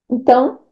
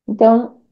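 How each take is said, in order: No difference in how they are said.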